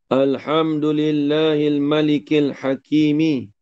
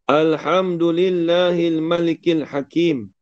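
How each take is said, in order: First: The last word ends with a vowel after m. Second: The last word stops on the m sound.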